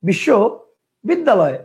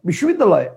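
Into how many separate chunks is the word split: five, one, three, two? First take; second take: two; one. First: The word is broken into two separate chunks. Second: The word is said in one unbroken chunk. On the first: "কয়টা হলো? দুইটা।" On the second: "একবারে বিশ্ববিদ্যালয়, কয়টা হলো? একটা।"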